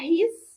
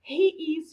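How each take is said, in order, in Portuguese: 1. As palavras se juntam em uma só sílaba contraída. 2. Duas palavras separadas são ditas por extenso.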